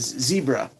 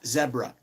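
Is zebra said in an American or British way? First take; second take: American; British. First: Zebra is said the American way. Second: Zebra is said the British way. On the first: "One thing we've picked up from the States" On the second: "in British English, it's"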